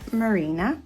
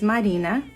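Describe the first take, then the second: First: The name is said with an American pronunciation. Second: The name is said with a Brazilian pronunciation. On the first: The name is adapted so Americans understand it. "I Americanize it" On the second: The name keeps its original form. "I'm Brazilian, so the correct way of saying is Marina"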